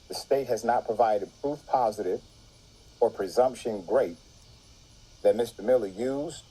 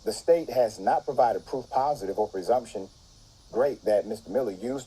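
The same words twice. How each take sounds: First: It is read at a slower, deliberate pace. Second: It is read at a normal, quicker pace.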